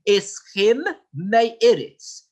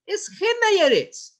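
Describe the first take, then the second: First: The two words are kept clearly separate. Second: The two words run together into one. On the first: The speaker calls it right. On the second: The speaker calls it wrong.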